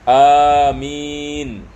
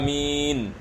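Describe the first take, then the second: First: The vowels are drawn out long. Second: The vowels are kept short. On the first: "disunatkan kita membaca dengan mad" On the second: "dibaca dengan pendek"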